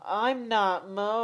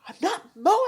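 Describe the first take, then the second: First: It is said in the speaker's own normal voice. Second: It is said in a put-on imitation voice. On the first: "that wasn't me trying to do a Lauren impression" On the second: "let me do a Lauren impersonation"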